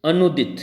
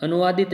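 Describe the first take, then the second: First: "अनुदित" as a-noo-dit, no vaa; correct form. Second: "अनुवादित" with long vaa after anu; wrong form. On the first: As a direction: say "अनुदित" firmly without a vaa syllable. ("अनुदित" बिना 'वा' के, सही उच्चारण) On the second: ("अनुवादित" में 'वा' बोलकर गलत रूप) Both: Shown as a demonstration. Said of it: "अनुवादित नहीं".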